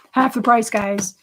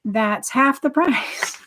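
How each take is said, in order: First: "Half the price" said through a laugh, louder; giggling stress on "Half the price"; laughing repeat. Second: "half the price" drawn out very slowly; drawn-out stress on "half the price"; slow emphasis. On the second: Stresses the price once more. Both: Real, not acted.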